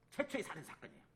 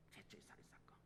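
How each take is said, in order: First: Said in the usual way. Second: Barely audible whisper; hushed, voiceless echo; whispered repeat. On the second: Real, not acted. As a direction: let it fade to a breath of a whisper.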